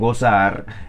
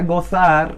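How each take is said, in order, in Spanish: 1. La z se pronuncia como el sonido s. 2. La z se pronuncia como el sonido th. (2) "uno no pronuncia"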